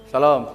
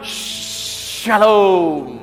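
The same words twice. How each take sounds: First: It is said grudgingly, with annoyance. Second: It is said warmly and drawn out.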